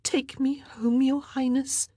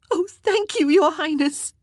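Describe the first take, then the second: First: High, whispered begging; girl begging the queen in a hushed plea. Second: High, loud burst of thanks; relieved girl crying thanks to the queen, high and loud; cried out in relief. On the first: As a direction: plead in a whisper. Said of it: "she begged". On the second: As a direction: cry out your thanks. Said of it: "Mary cried". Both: A narrator's reading.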